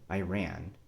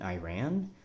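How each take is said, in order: First: The voice falls at the end. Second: The voice rises at the end.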